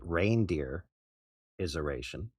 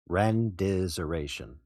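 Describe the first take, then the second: First: The word is said with all its syllables. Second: The word is said with syllables dropped. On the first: "You could pronounce it" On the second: "Or you can shorten it to"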